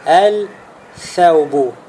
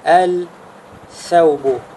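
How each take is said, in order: No difference in how they are said.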